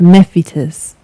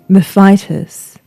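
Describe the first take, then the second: First: The name is pronounced the Latin way. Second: The name is pronounced the English way. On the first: The speaker calls it right. "the pronunciation you've heard me using is according to the Latin" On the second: The speaker calls it wrong. "we anglicise her name to Mephitis"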